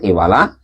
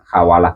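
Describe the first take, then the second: First: The first vowel is a high 'i' sound. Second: The first vowel is an open 'a' sound. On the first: "dengan kasrohnya hak" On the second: "dengan dibaca fathah haknya"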